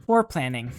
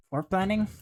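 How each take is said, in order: First: Said in the usual way. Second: "Foreplanning" with a rising, higher question tune; questioning repeat. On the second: Real, not acted. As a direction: query "Foreplanning" as if unsure it's a word. Queries own choice of word.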